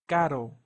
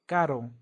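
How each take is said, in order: The two takes are said the same way.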